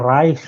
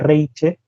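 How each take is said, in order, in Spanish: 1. El nombre se dice con sonidos alemanes. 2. El nombre se dice con sonidos españoles. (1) "de origen alemán" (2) "simplemente como sería en lengua española"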